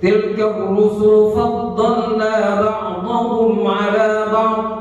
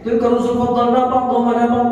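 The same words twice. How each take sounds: First: It is recited slowly and deliberately. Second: It is recited quickly and rushed. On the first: The speaker calls it right. "Kalau belum bisa baca begitu" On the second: The speaker calls it wrong. "Cepat kan?"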